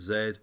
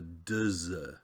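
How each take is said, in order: First: The sound is a plain z. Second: The sound starts with d before z. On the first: "They've actually said it's a z" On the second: "I think it's more of a dz"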